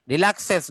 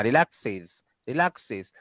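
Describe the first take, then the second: First: "রিল্যাক্সেস" loud, as "relak-ses"; wrong es ending. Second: "রিল্যাক্সেস" as "relak-siz"; iz ending. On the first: Teacher showing the error, রিল্যাক্সেস ending in ses. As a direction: open the last vowel of "রিল্যাক্সেস" to e. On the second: Teacher repeating the correction, রিল্যাক্সেস ending in siz. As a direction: end "রিল্যাক্সেস" with short i and z. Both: Shown as a demonstration. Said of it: "রিল্যাক্সেস না".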